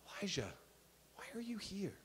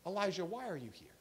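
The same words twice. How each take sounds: First: Very soft, hushed question; whispered. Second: Quick, softly voiced question; soft divine question. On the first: Acted. God asking Elijah again in the cave, whispered. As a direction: breathe it out barely audibly, pausing after the name. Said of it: "what God said when he whispered". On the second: God questioning Elijah in the cave, soft voice. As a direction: ask it gently, well below full voice. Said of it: "God comes down to Elijah, and he says".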